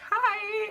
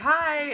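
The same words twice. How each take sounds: First: Josh's greeting is said in a high-pitched voice. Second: Josh's greeting is said in a lower voice.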